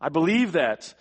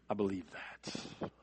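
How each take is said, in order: First: Firm, raised declaration; loud confident affirmation of faith; emphatic. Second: Softer, lower, slower and intimate; quiet sincere confession after the fervor; hushed affirmation. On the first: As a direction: ring it out with conviction. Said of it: "He says". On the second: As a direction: let it fall to a near-hush. Quiet close to the loud confession. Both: Acted.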